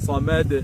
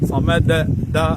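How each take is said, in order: First: The final bounce has no clear vowel color. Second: The final bounce sounds like an a vowel. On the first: The speaker calls it right. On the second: The speaker calls it wrong.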